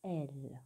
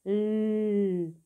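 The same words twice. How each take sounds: First: "L" said as its name, elle, low and soft; name the letter "L" as elle, dropping down. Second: "L" as a long held lll sound; letter sound. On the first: Teacher names the letter to write, "L" as a soft elle. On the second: Teacher sounds out the first letter, "L" as a sustained lll. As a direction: hum out the consonant of "L", without its name. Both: Shown as a demonstration. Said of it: "c'est la lettre".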